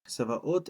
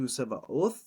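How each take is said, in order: First: The word ends with a plain t sound. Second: The word ends with a th sound. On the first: "I just do a T" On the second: "a lot of people do Tsevaoth"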